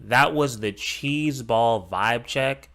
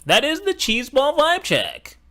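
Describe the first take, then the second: First: Slow mock quote. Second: Much higher, sing-song sneer at the phrase; mocking impression. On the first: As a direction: drag "cheese ball vibe check" out slowly, half-mocking. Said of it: "if you say unironically". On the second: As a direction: ham up the cringe line in a high mocking voice. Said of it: "that sentence".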